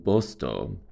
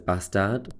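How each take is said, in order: First: The name is said the local Swedish way. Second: The name is said the familiar English way. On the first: This is how the locals say it. "that's how you say it" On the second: This is how outsiders know the name. "which you might know as"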